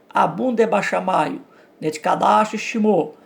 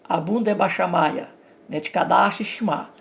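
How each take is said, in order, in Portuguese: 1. É lido com pronúncia do aramaico ocidental. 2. É lido com pronúncia do aramaico oriental. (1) "Se eu fosse ler no estilo ocidental" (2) "se eu for ler um aramaico é, oriental"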